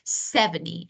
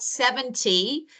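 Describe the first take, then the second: First: The T sound is dropped. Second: The T sound is clearly pronounced. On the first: "because we normally speak quickly, so you may hear" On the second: "seventy is a normal one"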